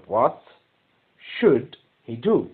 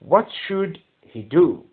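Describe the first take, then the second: First: Slow, do stressed; teacher repeating the question slowly for the class, very slow; slow dictation. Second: Very slow, what stressed; teacher dictating the question word by word, very slow; slow dictation. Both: Shown as a demonstration.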